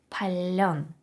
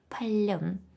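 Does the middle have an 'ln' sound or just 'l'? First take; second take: l; l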